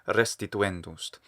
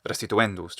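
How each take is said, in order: First: The first syllable is held long. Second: The first syllable is kept short. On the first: The speaker calls it right. "They give them extra length" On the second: The speaker calls it wrong. "instead of restituendust or something"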